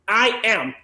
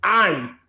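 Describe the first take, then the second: First: Both words are said in full, unreduced. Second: The two words are contracted into one syllable.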